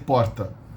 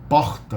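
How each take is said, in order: First: The r is a single quick tongue tap. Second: The r is a throaty h-like sound. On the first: This is the standard São Paulo pronunciation. "I say porta" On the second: This is the Rio de Janeiro pronunciation. "Somebody in Rio will say porta"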